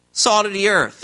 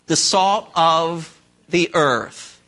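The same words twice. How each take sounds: First: Said in the usual way. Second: The salt of the earth, slow, with salt stretched long; slow drawn answer. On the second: Shown as a demonstration. Preacher to congregation, slow, weighty stress on salt. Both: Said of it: "You are what?".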